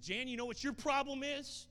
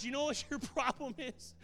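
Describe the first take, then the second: First: High, loud challenge; high, loud retold challenge to a grieving woman; loud confrontation. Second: High, loud, breaking into a laugh; loud repeat with a laugh in the middle; laughing challenge. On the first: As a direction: call her out, booming. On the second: Retold or imitated.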